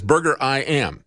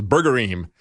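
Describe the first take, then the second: First: "Burger I M" split into burger, eye, am. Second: "Burgerim" run together as burger-eem; Hebrew plural ending. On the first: Host correcting his guess, "Burger I M" as burger-eye-am. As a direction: say "Burger I M" ending in the words "I am". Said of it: "but it's Burger I M". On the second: Host showing his mistaken guess, "Burgerim" as burger-eem, one word. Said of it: "I thought it was Burgerim". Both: Shown as a demonstration.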